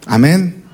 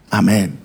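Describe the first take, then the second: First: "Amén" with a rising, asking end; amen as question. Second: "Amén" low with a falling end; amen as statement. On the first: Real, not acted. Preacher asks congregation to agree, "Amén" rising like a question. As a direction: lift the end of "Amén" to invite a reply. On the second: Acted. Churchgoer agrees with the sermon, "Amén" low and falling. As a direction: settle "Amén" down, like a listener agreeing.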